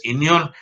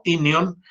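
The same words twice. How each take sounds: First: Inion stressed on the last syllable, i-NIÓN; wrong final stress. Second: Inion stressed on the first syllable, Í-nion; correct Latin stress. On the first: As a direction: put the accent on the final o of inion. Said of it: "no es inion". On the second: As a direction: put the accent on the opening i of inion. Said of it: "sino inion". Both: Shown as a demonstration.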